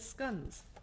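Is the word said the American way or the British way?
British. It is said with a British pronunciation.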